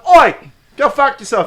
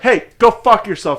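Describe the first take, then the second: First: It is said in a British accent. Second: It is said in a North American accent.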